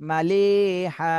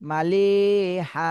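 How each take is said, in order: Both takes have the same delivery.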